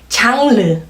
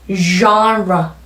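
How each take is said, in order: First: It is said with a Korean pronunciation. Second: It is said with an English pronunciation. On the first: The speaker calls it wrong. "굉장히 소리가 다르죠?" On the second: The speaker calls it right. "한번 호흡에 연결해볼까요?"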